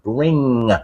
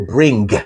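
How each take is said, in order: First: It ends in a soft ng sound. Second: It ends with a hard, released g. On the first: The speaker calls it right. "N G sound is like the sound you get in words like bring" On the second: The speaker calls it wrong. "You don't go bring"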